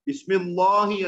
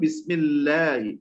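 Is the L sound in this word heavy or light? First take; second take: heavy; light. First: The L sound is said thick and heavy. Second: The L sound is said thin and light. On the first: The speaker calls it wrong. "ബിസ്മില്ലാഹി അല്ല കേട്ടോ, തെറ്റാണ്" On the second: The speaker calls it right. "അതിനെ തർക്കീഖ് ചെയ്തു, ലഘുവാക്കി"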